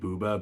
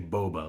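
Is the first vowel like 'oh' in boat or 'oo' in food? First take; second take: oo; oh. First: The first vowel is a long 'oo' sound. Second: The first vowel is an 'oh' sound. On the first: "I'm pronouncing it Booba because that's how Wikipedia says it's pronounced" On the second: "My instinct is to say boba, like bubble tea"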